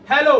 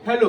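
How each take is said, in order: First: The word is shouted loudly with force. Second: The word is said at normal, moderate volume. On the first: "हम चिल्ला रहे हैं कस के" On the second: "जैसे हम अभी बोल रहे हैं"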